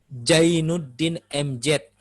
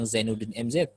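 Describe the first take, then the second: First: The name is said without a z sound. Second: The name is said with a clear z sound.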